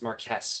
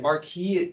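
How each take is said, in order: First: It is said with the British pronunciation. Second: It is said with the French pronunciation. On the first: "That is the it's the British pronunciation" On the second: "the French one spelled differently"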